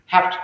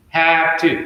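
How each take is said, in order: First: "have to" run together as "hafta"; fuse have to into one short word; fused words. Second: "have to" with both words full; separated words. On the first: Teacher showing fast native speech, fused words. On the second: Teacher showing the phrase before fusing, separated words. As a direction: keep have and to apart. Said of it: "become have to". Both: Shown as a demonstration.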